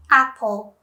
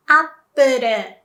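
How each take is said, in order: First: Said in the usual way. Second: "Apple" as Japanese "appuru"; Japanese pronunciation. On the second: Shown as a demonstration. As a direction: say "Apple" in clear syllables, "ap-pu-ru". English then Japanese brand demo.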